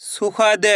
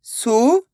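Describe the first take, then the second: First: Said in the usual way. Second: सुखद split with pauses between syllables. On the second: Shown as a demonstration. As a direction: sound out सुखद piece by piece. (सुखद को एक-एक अक्षर अलग करके) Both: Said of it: "एक अक्षर का उच्चारण करके".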